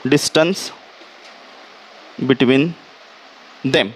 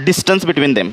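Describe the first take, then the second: First: DISTANCE, long pause, BETWEEN, long pause, THEM, kept low; word-by-word dictation. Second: DISTANCE BETWEEN THEM in one low, falling phrase; dictation phrase. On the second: Teacher dictates, first as whole phrase. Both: Shown as a demonstration.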